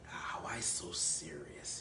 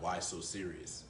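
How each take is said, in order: First: It is said in a playful Joker voice. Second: It is said in a flat, plain voice.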